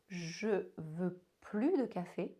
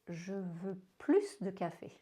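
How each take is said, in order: First: The final S of plus is silent. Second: The final S of plus is sounded. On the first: I don't want coffee anymore. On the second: I want more coffee.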